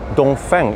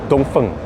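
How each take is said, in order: First: The name is pronounced the English way. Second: The name is pronounced the Chinese way. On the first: "when I say Dongfeng" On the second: "it's actually called Dongfeng, That's the way they pronounce it in China"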